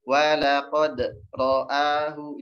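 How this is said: There is a break after walaqad. The speaker calls it wrong. "itu berhenti"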